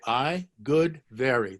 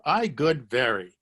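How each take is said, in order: First: I good very spaced out slowly, falling on good; slow word by word. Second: Said in the usual way. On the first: Shown as a demonstration. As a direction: spell out the Hebrew word order slowly. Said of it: "So you say". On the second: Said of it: "That's the way you say it in Hebrew".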